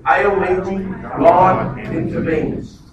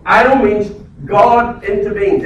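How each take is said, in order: First: El means God intervenes drawn out very slowly for all to repeat; very slow call and response. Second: El means God intervenes said slowly, each word weighted; slow emphatic declaration. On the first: Pastor leading the church to repeat it, very slow. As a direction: lead the crowd through it slowly. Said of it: "Everyone just say that with me". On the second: Preacher stating the key line to the congregation, slow and weighted. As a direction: lay it down slow and firm. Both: Shown as a demonstration.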